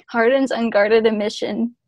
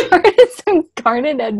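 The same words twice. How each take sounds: First: Said in the usual way. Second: Laughing. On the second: Shown as a demonstration.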